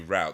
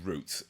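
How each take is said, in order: First: It is said with an American pronunciation. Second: It is said with a British pronunciation. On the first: "American accents would say route" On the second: "in England we say"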